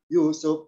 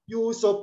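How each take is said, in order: First: The word is said at a low pitch. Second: The word is said at a high pitch. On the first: The speaker calls it wrong. "Jangan rendah" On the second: The speaker calls it right.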